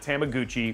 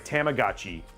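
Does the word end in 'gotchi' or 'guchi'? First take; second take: guchi; gotchi. First: The word ends with the syllables 'guchi'. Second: The word ends with the syllables 'gotchi'. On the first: The speaker calls it wrong. "so not Tamaguchi" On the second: The speaker calls it right. "Sorry, Tamagotchi"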